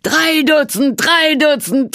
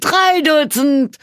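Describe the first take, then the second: First: Chanted, "Drei Dutzend" bellowed high and loud, "drei" punched; jeering crowd chant. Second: "drei Dutzend" high, loud and slow, "drei" stretched; drawn-out jeer. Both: A narrator's reading. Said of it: "johlten die Zuschauer".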